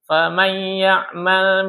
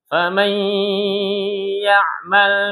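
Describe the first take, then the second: First: The nasal sound is cut short, read quickly. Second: The nasal sound is held long, read slowly. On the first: The speaker calls it wrong. "imam baca terlalu cepat" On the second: The speaker calls it right. "Berarti ditahan"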